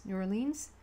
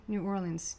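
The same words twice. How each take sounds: First: "Orleans" ending in a long "leens"; trying a pronunciation. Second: "Orleans" with a reduced, short "lunz" ending; trying a pronunciation. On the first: Reader checking the city's name for viewers, trying or-LEENS. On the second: Reader checking the city's name for viewers, trying OR-lunz. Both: Shown as a demonstration. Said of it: "is that what you say?".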